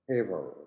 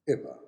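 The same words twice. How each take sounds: First: It is said in an American accent. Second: It is said in a British accent.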